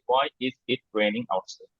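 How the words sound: The words are separated by short pauses. The speaker calls it wrong. "আমরা normally এভাবে বলি আর কি, নেটিভরা এভাবে এভাবে পজ দেবে না।"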